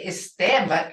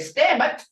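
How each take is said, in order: First: The word starts with a full initial vowel. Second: The initial vowel is dropped from the word. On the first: It is the formal form. "We don't say estemet" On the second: It is how people talk to each other. "we say stemet"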